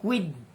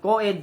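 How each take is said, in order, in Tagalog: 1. Parang quid ang tunog ng salita. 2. Parang co-ed ang tunog ng salita. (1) "hindi pwedeng quid. Parang ginawa niyong Q" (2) "tamang basa dyan, co-ed"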